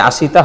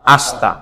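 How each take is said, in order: First: আশিতা as a-shi-ta, with a clear 'i'; i fully pronounced. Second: আস্তা as ash-ta, no vowel after 'sh'; silent i. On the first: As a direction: voice the vowel after 'sh' in আশিতা. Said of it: "আশিতা হবে না". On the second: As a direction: drop the 'i' so আস্তা has two syllables. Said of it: "সঠিক উচ্চারণ কি?". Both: Shown as a demonstration.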